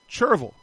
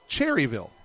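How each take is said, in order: First: The first part sounds like 'churr', reduced. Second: The first part sounds like 'cherry', fully said. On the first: This is the pronunciation the locals use. "The locals call it something like this, Cherryville. So basically, take the word churro, take the O off" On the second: This is the pronunciation most outsiders use. "exactly the way I say it, Cherryville. It's Cherry and Ville"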